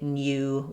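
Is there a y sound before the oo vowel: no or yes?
yes. It has a y glide before the oo vowel. This is the British way.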